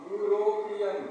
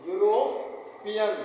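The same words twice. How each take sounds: First: Said in the usual way. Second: यूरोपियन stretched out slowly, yu-ro-pi-yan; slow teaching pronunciation of यूरोपियन; slow syllable demo. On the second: Shown as a demonstration. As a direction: sound out यूरोपियन slowly with a clear yu at the start. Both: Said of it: "अब देखिए, इसको कैसे लिखेंगे आप?".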